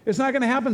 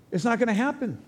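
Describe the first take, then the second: First: Not hit higher and harder; stress on not. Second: Said in the usual way. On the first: Shown as a demonstration. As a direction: punch the word not, pitch up.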